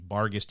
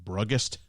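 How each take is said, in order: First: The word begins with the sound 'bar'. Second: The word begins with the sound 'brug'. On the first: "even though that's how it's spelled" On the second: "It could be Bruggest"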